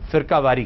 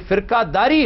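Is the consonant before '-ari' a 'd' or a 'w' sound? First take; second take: w; d. First: The consonant before -ari is a w sound. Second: The consonant before -ari is a d sound. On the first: The speaker calls it wrong. "ये वाव जो है ये कातिब की गलती की बिना पर पढ़ा जाता है" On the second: The speaker calls it right. "ये फिरकादारी है"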